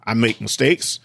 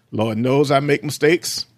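First: Said in the usual way. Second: I raised and drawn out, slow; stress on I. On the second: Shown as a demonstration. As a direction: lean hard on I in Lord knows I make mistakes. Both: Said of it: "I was emphasizing that".

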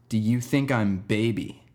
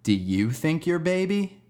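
First: Slow, deliberate retold question; earnest repeated question. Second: Put-on high, slow rise through "you're baby"; question turned back. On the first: Kid repeats his question to the teacher in the hallway, slow and earnest. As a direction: ask it slowly, spacing out the words. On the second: Teacher hands the kid's question back, careful rising "you're baby". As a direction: ask it back slowly, pitch climbing to a high "baby".

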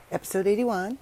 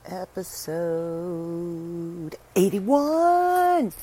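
First: Said in the usual way. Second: High, loud, stretched announcement; game show announcer. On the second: Pretend. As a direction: call the number like a game show host. Announcing the episode number.

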